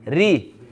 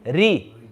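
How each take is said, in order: No difference in how they are said.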